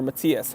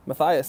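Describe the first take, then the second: First: Matthias said as mah-TEE-us; alternative pronunciation. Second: Matthias said as muh-THIGH-us; alternative pronunciation. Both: Shown as a demonstration. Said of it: "however you wanna pr-, uh, pronounce it".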